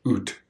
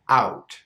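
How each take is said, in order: First: The vowel is pushed toward an 'oo' sound. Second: The vowel is open and wide. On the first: "Exaggerated sound" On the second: "Pure sound"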